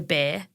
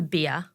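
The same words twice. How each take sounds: First: It is said in an Australian accent. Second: It is said in the listeners' non-Australian accent. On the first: This is how the speaker says it. "I say beer" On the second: This is how the others say it. "you guys say beer"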